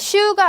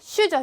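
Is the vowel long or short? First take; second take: long; short. First: The vowel is held long. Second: The vowel is kept short. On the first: The speaker calls it wrong. "슈가 아니라" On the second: The speaker calls it right.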